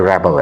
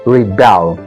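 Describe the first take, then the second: First: The stress is on the first syllable. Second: The stress is on the second syllable. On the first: It is a noun meaning a person who revolts. "अगर ये noun के तौर पर इस्तेमाल हो रहा है" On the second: It is a verb meaning to revolt. "ब के ऊपर स्ट्रेस है।"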